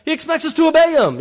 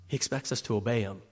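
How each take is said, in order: First: Higher and louder, laughing as it bursts out; loud, high, laughing repeat of He expects us to obey him. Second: Low and soft, almost under the breath; hushed, low delivery of He expects us to obey him; quiet. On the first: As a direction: shout it up high through a laugh. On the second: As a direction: say it softly and lower. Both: Shown as a demonstration.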